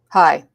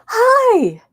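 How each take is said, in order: First: The greeting sounds angry and hostile. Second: The greeting sounds happy and excited. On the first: The speaker is angry at the listener. "why are you angry at me?" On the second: The speaker is glad to see the listener. "that I'm excited to see you, I'm happy"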